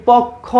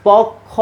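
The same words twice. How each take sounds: No difference in how they are said.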